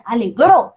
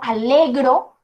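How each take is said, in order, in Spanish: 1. El golpe de voz va en la última sílaba. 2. El golpe de voz va antes de la última sílaba. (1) "El golpe de voz va en la última sílaba" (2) "digo alegro, pero cuando estoy hablando en presente"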